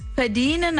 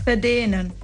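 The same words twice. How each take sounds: First: The word is said with the 'i' vowel. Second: The word is said without the 'i' vowel. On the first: The speaker calls it wrong. "bei verdienen ist das I weg" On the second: The speaker calls it right. "bei verdienen ist das I weg"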